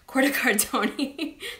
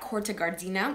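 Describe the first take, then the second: First: The last word ends with an 'ee' sound. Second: The last word ends with an 'ah' sound. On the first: The speaker calls it right. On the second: The speaker calls it wrong.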